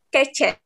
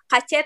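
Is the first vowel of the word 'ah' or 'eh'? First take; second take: eh; ah. First: The first vowel sounds like 'eh'. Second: The first vowel sounds like 'ah'. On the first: The speaker calls it right. "tapi kece" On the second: The speaker calls it wrong. "bukan dibaca kace"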